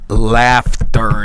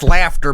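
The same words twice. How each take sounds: First: "laughter" drawn out low and loud; sceptical stress on laughter. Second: Said in the usual way. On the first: Shown as a demonstration. Streamer doubting the laugh is genuine, "laughter" low, loud and stretched. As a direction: lean heavily on "laughter", questioning it. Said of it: "but is it laughter?". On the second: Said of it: "but is it".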